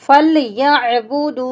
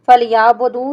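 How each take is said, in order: First: The ya is joined to a throaty catch. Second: The ya runs into a long a, no catch. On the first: The speaker calls it right. "यहाँ पे हमने या को आइन के साथ मिलाना है" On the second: The speaker calls it wrong. "फलयाबुदू नहीं पढ़ना"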